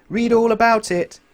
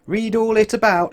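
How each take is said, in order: First: High, slow, loud street cry; newspaper seller shout. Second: High, loud street cry; newspaper seller shout. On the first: Newspaper seller crying the right words, high and slow. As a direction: cry it out slowly to passers-by. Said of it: "instead of shouting". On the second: Newspaper seller calling out, high and loud. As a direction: call it out to the street. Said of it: "shouted the newspaper sellers". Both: A narrator's reading.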